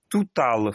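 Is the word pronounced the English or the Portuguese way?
Portuguese. It is said with Portuguese pronunciation.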